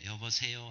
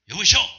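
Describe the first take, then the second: First: The greeting sounds kind and gentle. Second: The greeting sounds harsh and curt.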